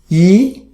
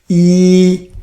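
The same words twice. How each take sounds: First: It is said with the second tone. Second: It is said with the first tone. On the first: "The second tone" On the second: "First song, you practice yi"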